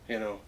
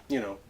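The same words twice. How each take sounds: No difference in how they are said.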